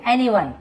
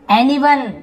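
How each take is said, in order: First: Said in the usual way. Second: Anyone said louder and higher, pronounced as eniwən with a falling tune; announced headword. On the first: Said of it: "teacher repeats headword in passing". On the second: Shown as a demonstration. Teacher introducing a vocabulary word to students, loud and falling. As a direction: call out Anyone as the new word on the list. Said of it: "teacher announces new headword".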